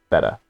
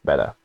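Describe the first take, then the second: No difference in how they are said.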